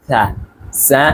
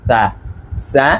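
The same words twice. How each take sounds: Both takes have the same delivery.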